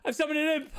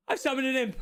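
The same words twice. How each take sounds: First: High excited cry, stress on "an"; even more thrilled. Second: High, loud excited cry; thrilled. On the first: Apprentice wizard crowing over his summoned imp. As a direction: bounce on "an imp" with glee. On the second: Apprentice wizard thrilled at summoning an imp. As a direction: announce it like you can't believe it worked. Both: Acted.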